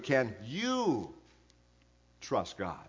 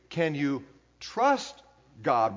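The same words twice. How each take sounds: First: The word trust carries no main stress. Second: The word trust carries the main stress. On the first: It asks whether one has a confident relationship with God. "And then he puts the question this way" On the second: It asks whether God is dependable in adversity. "with the emphasis on the word trust"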